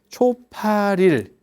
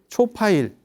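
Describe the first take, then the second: First: An L sound is heard after 'pa'. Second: No L sound is heard after 'pa'. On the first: "초 처음에 팔 일" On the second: "발음이 그렇게 가는 거예요"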